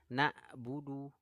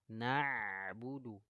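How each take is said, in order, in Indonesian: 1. Bunyi di tengah adalah hentian glotal yang tajam. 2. Bunyi di tengah mengalir tanpa hentian penuh. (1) "huruf ainnya ketukar dengan hamzah" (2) "Sifatnya mengalir, tawasud"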